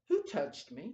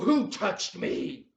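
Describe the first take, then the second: First: The question sounds calm and not angry. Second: The question sounds irritated and angry. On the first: The speaker is not annoyed at being touched. The speaker calls it right. "Jesus said it more like this" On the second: The speaker is annoyed at being touched. The speaker calls it wrong. "he's probably a little angry about this"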